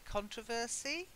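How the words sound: It is said the way some Americans say it. "some Americans say controversy"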